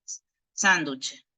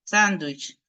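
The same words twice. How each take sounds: First: Sándwich said slowly as "sánduche", with a "che" ending; sándwich pronounced the local way, "sánduche"; Spanish-ized pronunciation. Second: Sándwich said the English way, ending in a clear "wich"; sándwich pronounced the English way, "sandwich"; English pronunciation. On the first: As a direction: turn sándwich into a slow "sánduche". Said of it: "terminamos diciendo s". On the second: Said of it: "cómo ustedes pronuncian, eh, sándwich en inglés". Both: Shown as a demonstration.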